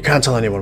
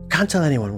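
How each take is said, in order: First: Spoken in a put-on dwarven character voice. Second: Spoken in a put-on Lenny-style character voice. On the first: "in my dwarven voice" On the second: "I'm going to use the Lenny voice"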